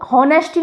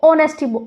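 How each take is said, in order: First: The word begins with an h sound. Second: The word begins with a vowel sound. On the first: The speaker calls it wrong. "इसको हॉनेस्टी नहीं" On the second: The speaker calls it right. "इसको ऑनेस्टी pronounce करते हैं"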